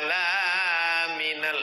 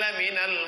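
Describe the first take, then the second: First: The vowel after the L is drawn out long. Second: The vowel after the L is kept short. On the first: The speaker calls it wrong. "salah. Kalau laminal artinya bukan rasul" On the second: The speaker calls it right. "Lamnya pendek, lam taukid"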